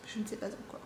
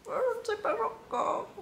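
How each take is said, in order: First: Said in the usual way. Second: 1 high silly voice. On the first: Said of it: "repeats it in a different voice". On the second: Pretend. Repeated in a high put-on voice.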